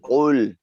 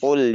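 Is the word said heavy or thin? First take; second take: heavy; thin. First: The word is raised and heavy. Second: The word is lowered and thin. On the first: "pada saat dia naik, kita naikkan" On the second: "ini turun ke bawah"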